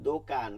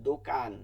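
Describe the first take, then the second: Both takes have the same delivery.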